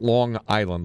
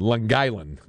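First: The G is not carried into Island. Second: The G is dragged over into Island. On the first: "Not Long Island" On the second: "You drag the G over that"

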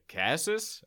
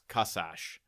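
First: The name is said with American English pronunciation. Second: The name is said with Hungarian pronunciation. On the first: This is how people outside the family say it. "my first kindergarten teacher was like, Kasas?" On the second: This is how the family says it. "If we were in Budapest, Hungary, it's Kasash"

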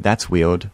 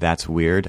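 First: The r sound in weird sounds like w. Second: The r sound in weird is pronounced normally. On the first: This reflects a childhood speech impediment. The speaker calls it wrong. "a speech impediment that I had when I was younger. Where I would say" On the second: This is the standard way to say it. The speaker calls it right. "instead of saying that's weird"

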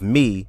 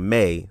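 First: The word rhymes with see. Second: The word rhymes with say. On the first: The speaker calls it right. "of me" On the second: The speaker calls it wrong. "Changing the enunciation of May, of me, to May, so it'll rhyme with say"

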